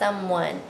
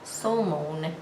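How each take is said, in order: First: The second syllable sounds like 'wun'. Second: The second syllable sounds like 'own'. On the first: The speaker calls it right. "We say someone" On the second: The speaker calls it wrong. "this should be som, own, somon. And we don't say somon"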